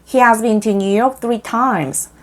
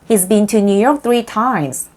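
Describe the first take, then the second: First: He and has are said as two full words. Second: He and has merge into the short form he's.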